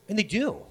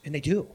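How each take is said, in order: First: "And they do" pitched higher, falling firmly at the end; emphatic repeat. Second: Said in the usual way. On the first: Real, not acted. Preacher stresses Nineveh's change, "And they do" high and emphatic. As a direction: drive home "And they do" on a raised, falling tune.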